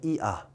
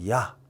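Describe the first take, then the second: First: Two vowels are said slowly as separate sounds. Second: Two vowels are said quickly as one glide.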